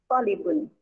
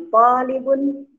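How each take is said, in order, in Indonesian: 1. Vokal suku kata pertama diucapkan pendek. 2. Vokal suku kata pertama diucapkan panjang.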